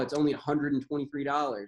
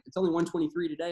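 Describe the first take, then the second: First: The price is said in full, with 'hundred'. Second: The price is said shortened, without 'hundred'. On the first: The price sounds large and surprising. The speaker calls it wrong. "I don't say like" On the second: The price sounds small and no big deal. The speaker calls it right. "say it shortened"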